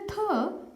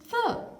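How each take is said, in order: First: The th is said in the Indian way. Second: The th is said with tongue between teeth. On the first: The speaker calls it wrong. "The received Indian pronunciation is mostly th ... So don't say th" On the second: The speaker calls it right. "say th, slipped th"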